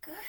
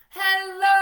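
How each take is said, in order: First: Barely audible whispered hello; mouse-quiet hello; tiny whisper. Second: Shouted high and very loud; big loud shout of hello. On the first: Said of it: "hello as quiet as we can". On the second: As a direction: belt it out as loud as you can. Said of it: "as loud as you can". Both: Shown as a demonstration.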